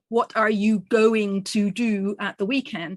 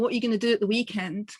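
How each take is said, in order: First: Going to is said in full. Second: Going to is reduced to gonna. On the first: "I didn't say" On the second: "That was reduced to"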